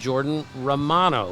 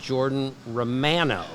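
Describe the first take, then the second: First: The name is said the American way. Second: The name is said the Canadian way. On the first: The speaker calls it wrong. "that's how we would say it in our country" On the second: The speaker calls it right. "in Canada, they pronounce it"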